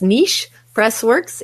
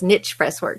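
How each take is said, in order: First: The first word is said in a refined way. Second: The first word is said in a casual way. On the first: This is the fancy, posh way to say it. "if you drink your tea with your pinky out" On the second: This is the everyday, down-to-earth way to say it. "if you drink beer"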